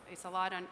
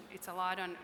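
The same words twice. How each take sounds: The two takes are said the same way.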